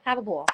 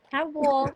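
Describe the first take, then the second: First: Said in the usual way. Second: "Have a ball" higher and stressed on "ball"; cheerful emphatic "Have a ball"; emphatic repeat. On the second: Shown as a demonstration. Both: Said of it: "a big tip when you're traveling".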